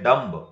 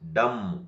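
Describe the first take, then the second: First: The final B is sounded. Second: The final B is silent. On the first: The speaker calls it wrong. "Don't say dumb" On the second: The speaker calls it right. "We have to pronounce"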